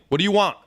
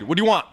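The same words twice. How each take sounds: First: It is said in a rude, snapping tone. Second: It is said in a friendly, relaxed tone.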